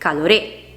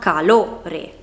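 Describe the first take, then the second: First: The stress is not on the middle syllable. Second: The stress is on the middle syllable. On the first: The speaker calls it wrong. "non calore" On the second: The speaker calls it right. "Lo, perché si pronuncia calore"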